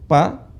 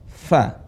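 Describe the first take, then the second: First: Both lips close together, with no airflow. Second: Upper teeth touch the lower lip, with airflow. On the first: The speaker calls it wrong. "Bukan bibir ketemu dengan bibir" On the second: The speaker calls it right. "ujung gigi seri bertemu dengan perut bibir bawah"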